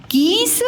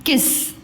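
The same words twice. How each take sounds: First: कीस with long high ee; गलत लंबी ई. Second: किस with a short quick i; सही छोटी इ. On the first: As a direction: stretch the ई in कीस. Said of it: "उच्चारण में कम समय लगता है". (कीस में ई खींचकर) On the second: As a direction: clip the इ in किस. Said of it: "छोटी लग जाती है". (किस में इ छोटी) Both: Shown as a demonstration.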